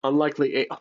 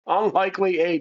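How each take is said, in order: First: Said in the usual way. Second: Higher-pitched, amazed repeat; amused disbelief. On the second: Real, not acted. Player repeats the lucky card after laughing, amused disbelief. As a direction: read it out as an unbelievable coincidence.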